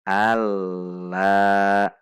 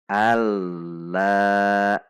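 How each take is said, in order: No difference in how they are said.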